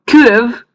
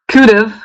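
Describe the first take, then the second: No difference in how they are said.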